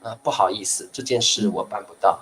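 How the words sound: It is said in a polite tone.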